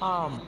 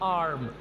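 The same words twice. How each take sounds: First: The r sound is silent. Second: The r sound is pronounced. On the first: The speaker calls it right. "यहाँ पर हम आर को silent रखेंगे" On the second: The speaker calls it wrong. "ऐसे बोलते हैं"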